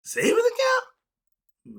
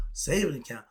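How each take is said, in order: First: Very high, slow, squeaky incredulous "Savings account?"; exaggerated high-pitched disbelief; mock disbelief. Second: Said in the usual way. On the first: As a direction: stretch "account" up in mock shock. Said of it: "I don't know what the hell that is". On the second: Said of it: "repeats term, then incredulous".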